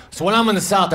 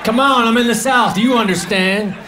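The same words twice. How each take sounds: First: Said in the usual way. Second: Higher, hammed-up Southern twang; mock Southern accent. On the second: Comic pleading with Southern diners in a mock Southern accent. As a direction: lean into a fake Southern accent. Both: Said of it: "I try to talk like that".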